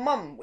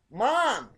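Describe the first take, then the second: First: "mum" with a short uh vowel; British "mum". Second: "mom" with an open ah vowel; drawn-out ah in "mom"; American "mom". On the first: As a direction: say "mum" the British way, rhyming with drum. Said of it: "You guys call 'em mum". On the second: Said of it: "We call our moms". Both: Shown as a demonstration.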